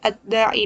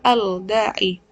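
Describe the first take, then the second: First: The L is merged into a doubled D. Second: The L is heard clearly before the D. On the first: The speaker calls it right. "menjadi ad-da'i" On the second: The speaker calls it wrong. "bukan al-da'i"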